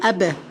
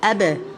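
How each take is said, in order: First: The lips part, giving the final b a bounce. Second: The same.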